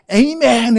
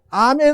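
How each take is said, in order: First: The first vowel is a gliding 'ay' sound. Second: The first vowel is an open 'ah' sound. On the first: The speaker calls it wrong. "미국 사람들은 ... 꼭 에이멘 해요" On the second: The speaker calls it right. "히브리어로 아멘"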